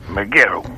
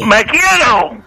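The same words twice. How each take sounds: First: It is said at normal, softer volume. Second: It is said much louder.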